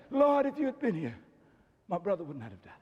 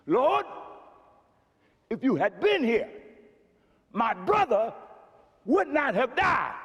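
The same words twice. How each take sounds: First: A lightly voiced meek Martha, softening; meek and mild. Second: Mary's lament. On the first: Martha approaching Jesus humbly, lightly meek. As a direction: say it gently and meekly. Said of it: "meek and mild way". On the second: Retold or imitated. Mary throwing herself down before Jesus, final lament. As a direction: state it flatly and finally. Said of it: "Mary goes".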